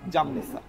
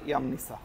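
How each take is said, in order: First: The word begins with a J sound. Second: The word begins with a Y sound. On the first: The speaker calls it wrong. "আমিও বলেছিলাম জামনিসা, কিন্তু আসলে এটা জামনিসা না।" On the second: The speaker calls it right. "Croatian ভাষায় এটা হবে হচ্ছে ইয়ামনিসা।"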